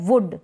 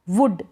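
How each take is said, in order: No difference in how they are said.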